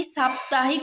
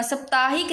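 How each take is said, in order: First: साप्ताहिक with a long opening 'saa'; correct long vowel. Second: साप्ताहिक with a short first 'a'; mispronounced short vowel. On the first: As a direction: say साप्ताहिक as 'saap-taa-hik'. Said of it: "शा होता है इसमें". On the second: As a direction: say साप्ताहिक as 'sap-taa-hik'. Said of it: "साप्ताहिक नहीं". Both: Shown as a demonstration.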